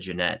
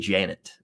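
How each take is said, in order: First: The name is said like Jeanette. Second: The name is said like plain Janet. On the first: This is how the other person says the name. "but you said Jeanette" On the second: This is how the speaker says the name. "I say Janet"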